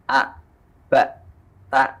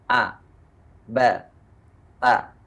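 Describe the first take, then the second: First: The syllables end with a held, blocked sound. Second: The syllables are let go freely at the end. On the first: The speaker calls it wrong. "nggak boleh a, ba, ta, nggak boleh" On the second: The speaker calls it right. "Jadi lepas saja"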